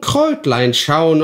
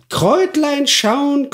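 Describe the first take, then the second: First: Kräutlein schauen repeated lower and slow; lower croaking hag. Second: Kräutlein schauen squeaked very high and slow; sly crone peering at herbs, shrill; high croaking hag. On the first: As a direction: let Kräutlein schauen sink back into a muttering crone. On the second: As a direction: stretch Kräutlein schauen up into a thin witch squeal. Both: Acted. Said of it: "krächzender Stimme".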